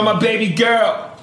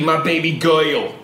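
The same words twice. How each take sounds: First: 'Girl' is said in its normal form. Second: 'Girl' is distorted into an exaggerated 'goyle' sound. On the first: The speaker calls it right. "He would say girl and world the way you say girl and world, but with a [name] tone" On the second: The speaker calls it wrong. "What the fuck is world and goyle?"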